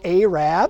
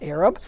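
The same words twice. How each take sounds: First: It has the local Baltimore pronunciation. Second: It has the usual standard pronunciation. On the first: This is the local name for street peddlers, without the insult. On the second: This is the older European term with a derogatory sense.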